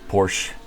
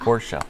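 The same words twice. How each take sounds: First: The word is said with one syllable. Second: The word is said with two syllables. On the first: The speaker calls it wrong. "Unlike half of those people that were at Le Mans this past weekend commentating" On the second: The speaker calls it right. "It's a two syllable word"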